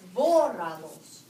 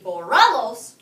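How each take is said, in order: First: The stress is on the first syllable. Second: The stress is on the second syllable. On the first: The speaker calls it right. "you're going to put a written accent over the first O" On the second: The speaker calls it wrong. "You don't want it to be borralos"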